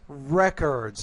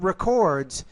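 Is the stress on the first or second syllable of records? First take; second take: first; second. First: The stress is on the first syllable. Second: The stress is on the second syllable. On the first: It is used as a noun. The speaker calls it right. "Copious records" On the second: It is used as a verb. The speaker calls it wrong. "Wrong word stress here. not records"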